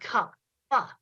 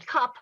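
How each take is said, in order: First: The final p is released with an extra vowel. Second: The final p is plain and unreleased. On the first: "switched back and forth between saying cup and cup pa" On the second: "switched back and forth between saying cup and cup pa"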